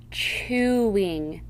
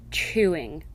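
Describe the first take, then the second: First: Chewing drawn out in two syllables; split into syllables. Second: Said in the usual way. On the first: Shown as a demonstration. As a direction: break Chewing apart slowly. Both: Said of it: "examples of how the ... should be read".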